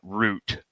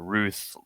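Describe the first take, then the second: First: It ends with a 't' sound, like root. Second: It ends with a 'th' sound, like tooth. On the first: The speaker calls it right. "root like a uh, tree root" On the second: The speaker calls it wrong. "it's not actually uh, Ruth like tooth"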